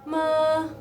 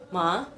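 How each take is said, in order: First: The pitch stays level throughout. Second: The pitch rises upward. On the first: "nadanya nadanya datar" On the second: "nadanya naik ke atas"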